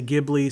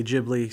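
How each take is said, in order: First: Ghibli with a hard G, as in "give"; hard-G pronunciation. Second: Ghibli with a soft G, like a J; soft-G pronunciation. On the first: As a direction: say Ghibli as GIB-lee. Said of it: "some people say". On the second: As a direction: say Ghibli as JIB-lee. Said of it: "some people say Ghibli Studios". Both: Shown as a demonstration.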